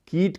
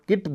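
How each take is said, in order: First: The vowel is long. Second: The vowel is short. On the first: "कोई बांग्ला भाषी बोलेगा तो सामान्यतः इसे कीट कहेगा" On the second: "यह ह्रस्व ई ध्वनि है"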